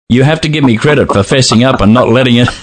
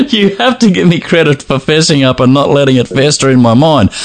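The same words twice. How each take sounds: First: Said in the usual way. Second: Laughing through the line; words bubbling with laughter. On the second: Real, not acted. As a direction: say it while cracking up.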